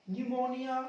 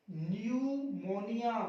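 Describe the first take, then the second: First: Said in the usual way. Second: न्यूमोनिया slowly as "nyoo-mo-ni-yaa", starting on N; silent P, drawn out. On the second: Shown as a demonstration. Teacher silencing the P, न्यूमोनिया slowly from an N start. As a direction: stretch each syllable of न्यूमोनिया, no P. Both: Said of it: "कर दो चुप".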